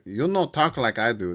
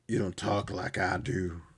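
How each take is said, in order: First: It is said in a put-on Hispanic accent. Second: It is said in a plain voice.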